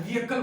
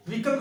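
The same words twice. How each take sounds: First: व्हीकल in three parts, "VEE-uh-kul"; correct pronunciation. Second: व्हीकल in two parts, "VEE-kul"; usual wrong pronunciation. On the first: Teacher answering, व्हीकल as "VEE-uh-kul". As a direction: add a middle vowel to व्हीकल. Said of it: "व्हीकल बोला जाता है". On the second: Teacher asking about the habit, व्हीकल as "VEE-kul". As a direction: say व्हीकल with no middle vowel. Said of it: "क्या बोला जाता है". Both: Shown as a demonstration.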